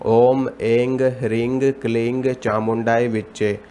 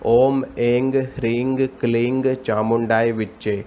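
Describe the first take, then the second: Both takes have the same delivery.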